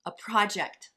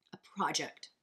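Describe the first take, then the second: First: Louder, firm emphasis on project; punchy. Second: Hushed, breathy whisper of the word. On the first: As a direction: say it out loud with punch. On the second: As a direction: whisper it like a secret. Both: Shown as a demonstration.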